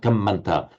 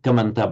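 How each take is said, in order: First: The m sound is held slightly longer. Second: The m sound is short and single. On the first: "but kamanta" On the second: "not kamanta"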